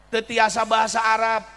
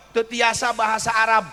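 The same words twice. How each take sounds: The two takes are said the same way.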